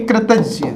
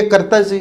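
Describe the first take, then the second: First: Said in the usual way. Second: कर्तज्ञ with "kar" in place of "kri"; wrong form. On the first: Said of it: "ये शुद्ध होगा". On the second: Shown as a demonstration. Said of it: "ये गलत हो जाता है".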